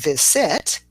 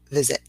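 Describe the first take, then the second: First: The final vowel is a full vowel. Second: The final vowel is a reduced uh sound. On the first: The speaker calls it wrong. "instead of saying visit" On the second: The speaker calls it right. "we've got that little uh at the end"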